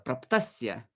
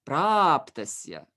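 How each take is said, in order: First: The first syllable is not stressed. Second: The long first syllable carries the stress. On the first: The speaker calls it wrong. "Many many attempted to say it like uh, praptasya, but no" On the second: The speaker calls it right. "We have one long vowel here, and it will naturally um, attract the stress"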